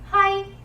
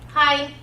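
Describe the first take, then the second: First: The word is said with a high pitch. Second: The word is said with a low pitch. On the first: It is a vulgar insult. "if you pitch your voice up" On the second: It means yes. "if you pitch your voice down"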